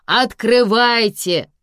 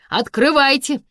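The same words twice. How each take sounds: First: Loud, slow, drawn-out command; insistent order. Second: Loud, high command to open up; official order. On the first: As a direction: stretch out the order to open up. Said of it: "велели из коридора". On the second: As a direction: order them through the door. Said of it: "велели из-за двери". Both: A narrator's reading.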